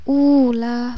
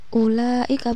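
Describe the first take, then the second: First: The first vowel is drawn out long. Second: The first vowel is short. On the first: The speaker calls it wrong. "bukan seperti itu" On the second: The speaker calls it right. "tapi dibaca pendek"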